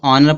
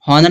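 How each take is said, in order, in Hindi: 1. यह शब्द सीधे स्वर से शुरू होता है। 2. यह शब्द h की ध्वनि से शुरू होता है। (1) "इसको ऑनर पढ़ा जाए" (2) "हॉनर नहीं पढ़ा जाएगा"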